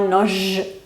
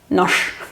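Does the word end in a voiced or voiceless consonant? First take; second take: voiced; voiceless. First: The word ends in a voiced ZH sound. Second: The word ends in a voiceless SH sound. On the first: The speaker calls it wrong. "no noj" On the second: The speaker calls it right. "La G pasa a sha"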